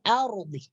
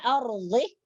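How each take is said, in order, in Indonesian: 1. Konsonan tengah adalah dad emfatik. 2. Konsonan tengah terdengar seperti d biasa. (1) "tetapi fil ardi" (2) "Bukan ardi"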